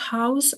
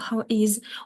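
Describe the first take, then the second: First: The two words are contracted into one syllable. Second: The two words are said separately and in full.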